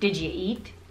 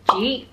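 First: It is said as three full, separate words. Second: It is squeezed into one short syllable. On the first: The speaker calls it wrong. "Instead of saying" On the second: The speaker calls it right. "Just say"

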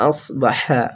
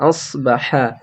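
No difference in how they are said.

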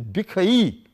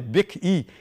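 First: The word ends in a separate 'ai' sound. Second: The word ends in a short 'ee' sound. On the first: The speaker calls it right. "so it is bikh and e. ... It is bikhai" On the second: The speaker calls it wrong. "You cannot say bikhi"

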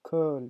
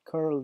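First: No r sound; the vowel is simply lengthened. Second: An r sound is pronounced after the vowel. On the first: "Британия, Англиядағыдай curl деп айтсаңыз болады. Рона айтпайсыз, тек жаңағы өні созасыз" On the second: "American English тағдай айтсаңыз да болады"

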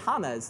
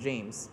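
First: The name starts with a breathy H sound. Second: The name starts with an English J sound. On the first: The name is said the Spanish way. "if you follow football, then you might be familiar with James Rodriguez from Colombia, and you might say James" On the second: The name is said the usual US way. "That's a very different pronunciation than James"

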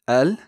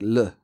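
First: The article begins with a vowel. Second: The article is only a consonant. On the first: This is the fuller form used in most dialects. "the definite article, al or il" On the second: This is how it sounds in Moroccan. "actually sounds more like l"

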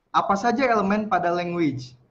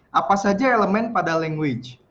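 Both takes have the same delivery.

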